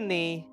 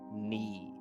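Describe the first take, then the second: First: The word starts with a sounded K. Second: The word starts with no K sound. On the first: The speaker calls it wrong. "we know it's not knee" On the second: The speaker calls it right. "It has the silent K"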